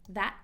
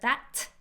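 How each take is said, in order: First: The final T is stopped, not released. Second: The final T is fully released. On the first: The speaker calls it right. "stop T" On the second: The speaker calls it wrong. "instead of that, no"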